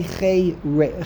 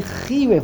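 First: "Chei" said as khay, breaking off at "Re-"; long ay in "Chei", cut short after "Re-"; ay vowel in Chei. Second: "Chi Reif" opening on khee; first syllable of "Chi Reif" rhymes with see; ee vowel in Chi. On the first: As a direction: say "Chei" to rhyme with day. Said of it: "Why does it say Chei Re". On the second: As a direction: say "Chi" with a long ee, then "Reif". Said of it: "it should say Chi Reif". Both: Shown as a demonstration.

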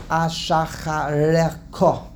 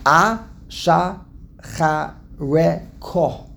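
First: Ashachareko said slowly, feeling through the syllables; careful pronunciation. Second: Ashachareko in very slow separate syllables, A-sha-cha-re-ko; drawn-out, syllable-by-syllable Ashachareko. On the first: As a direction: work slowly through Ashachareko as one hard word. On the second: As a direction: break Ashachareko up with a clear pause after every syllable. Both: Shown as a demonstration. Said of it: "That's a hard word to say".

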